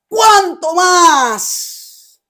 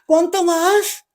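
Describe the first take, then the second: First: It is said firmly as an exclamation. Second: It rises like a question.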